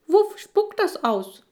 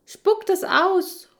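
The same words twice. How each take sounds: First: Very high, slow squeaky voice. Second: High, slow, loud shout at the dog. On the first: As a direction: squeak the name out loud. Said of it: "piepst der Breitschultrige". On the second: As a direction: call out sharply and drawn out. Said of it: "rufe ich". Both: Acted.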